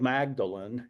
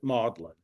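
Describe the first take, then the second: First: The name is pronounced just as it is spelled. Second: The name is pronounced the British way, unlike spelling. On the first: "it's spelled Magdalen" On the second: "they uh, incorrectly pronounce it Magdalen"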